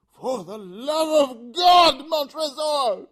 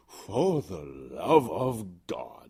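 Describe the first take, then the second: First: High, loud, slow desperate shriek; Fortunato's last scream; anguished scream. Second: Very slow whispered echo; cold whisper. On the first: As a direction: scream it out in terror. Fortunato's final plea. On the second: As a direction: whisper it back slowly. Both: Acted.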